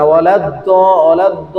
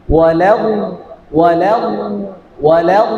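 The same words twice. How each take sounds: First: ওয়ালা দ with the দ stopped, no air; wrong stopped D. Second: ওয়ালা with a sound rumbling inside. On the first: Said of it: "এরকম যেন না হয়ে যায়". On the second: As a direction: keep the inner hum going through ওয়ালা. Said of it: "একটা আওয়াজ পাও". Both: Shown as a demonstration.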